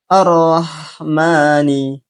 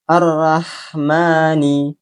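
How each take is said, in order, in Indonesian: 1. Suku kata r terdengar seperti 'ro' yang penuh. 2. Suku kata r terdengar seperti 'ra' yang tipis. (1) "Padahal yang benar adalah" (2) "membaca huruf ro menjadi ra"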